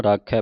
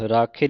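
First: ਰਾਖੈ ending in open "-khai"; ਰਾਖੈ as "raa-khae"; open final vowel. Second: ਰਾਖੇ ending in a close "-khay"; ਰਾਖੇ as "raa-khay"; wrong final vowel. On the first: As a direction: finish ਰਾਖੈ on a lower, wide "ai" as in "cat". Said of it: "ਰਾਖੈ ਪੜ੍ਹਨਾ". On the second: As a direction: say ਰਾਖੇ with plain "e", as the mistake. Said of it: "ਰਾਖੇ ਨਹੀਂ ਪੜ੍ਹਨਾ". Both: Shown as a demonstration.

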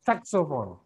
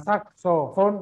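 First: "saxophone" stressed on first syllable, falling; correct "saxophone". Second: "saxophone" spelled out as slow "sak-so-fon"; wrong "saxophone". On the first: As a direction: punch SAX, then glide down "saxophone". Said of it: "tapi saxophone". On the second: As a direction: drag each syllable of "saxophone", ending raised. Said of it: "Bukan saxophone". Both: Shown as a demonstration.

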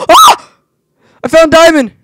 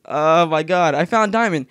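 First: Very high, loud squeal; high-pitched squeal. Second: Said in the usual way. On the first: Real, not acted. Gamer finding diamond, squealing very high and loud. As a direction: squeal the find. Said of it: "That was a really high-pitched voice". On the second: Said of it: "See, I literally found diamond".

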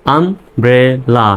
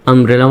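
First: "umbrella" very slowly as am, bre, la with gaps; slow teacher's sounding-out of "umbrella", pausing between syllables. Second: Said in the usual way. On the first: Shown as a demonstration. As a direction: stretch "umbrella" into three separate beats. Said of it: "ভেঙে ভেঙে উচ্চারণ করবেন". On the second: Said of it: "umbrella মানে ছাতা".

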